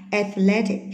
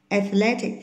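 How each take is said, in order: Both takes have the same delivery.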